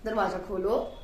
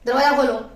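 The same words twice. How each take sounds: First: It is said as a polite request. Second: It is said as a firm order.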